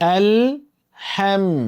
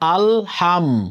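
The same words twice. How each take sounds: First: It is said with light, thin sounds. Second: It is said in a regional Bengali style. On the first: The speaker calls it right. "পাতলা কিন্তু" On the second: The speaker calls it wrong. "এটা হচ্ছে আমাদের আঞ্চলিক উচ্চারণ"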